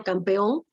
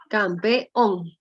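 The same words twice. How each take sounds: First: Said in the usual way. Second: "Campeón" broken slowly into cam, pe, ón; syllable by syllable. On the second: Shown as a demonstration. Teacher showing students the last syllable, "Campeón" split syllable by syllable. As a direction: sound out "Campeón" in separate syllables, landing on the final ón. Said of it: "Ahí, última sílaba".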